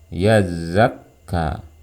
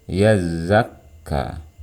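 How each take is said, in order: The two takes are said the same way.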